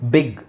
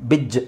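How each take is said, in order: First: The word ends with a hard g sound. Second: The word ends with a j sound. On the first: The speaker calls it right. "ಇಲ್ಲೆಲ್ಲ ಗನೇ ಇರೋದು" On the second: The speaker calls it wrong. "ಅಂತ ಹೇಳೋಕ್ಕಾಗಲ್ಲ"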